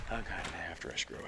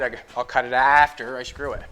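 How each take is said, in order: First: Said softer and lower, to himself; quiet mutter to self. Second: Said in the usual way. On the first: Real, not acted. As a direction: repeat the plan under your breath. Repeats plan quietly to himself.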